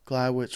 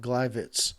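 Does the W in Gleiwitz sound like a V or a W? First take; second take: W; V. First: The w is said as an English w sound. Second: The w is said as a v sound. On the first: The speaker calls it wrong. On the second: The speaker calls it right.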